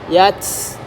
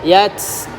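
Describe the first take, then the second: First: The final t ends in a strong hiss. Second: The same.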